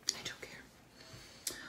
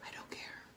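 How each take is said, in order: First: Drawn-out faint whisper; slow whisper. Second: Barely audible whisper. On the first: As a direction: whisper it slowly, trailing off. Repeated slower whisper. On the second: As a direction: whisper it to yourself. Whispered aside. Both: Real, not acted.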